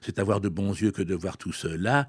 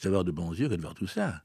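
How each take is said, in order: First: Every syllable is articulated in a solemn, pompous way. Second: Syllables are elided in a casual, everyday way. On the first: The speaker calls it wrong. "d'une manière trop solennelle, trop pompeuse" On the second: The speaker calls it right. "mais on dit"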